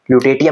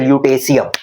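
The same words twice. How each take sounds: First: "lutetium" said the wrong way, as loo-teh-tee-um; wrong pronunciation. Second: "lutetium" said as lyoo-teh-see-um; right pronunciation. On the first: Teacher showing students the wrong way to say it, as loo-teh-tee-um. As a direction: say "lutetium" the way he says you should not. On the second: Teacher giving students the correct pronunciation, lyoo-teh-see-um. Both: Shown as a demonstration. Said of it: "lutetium नहीं बोलते".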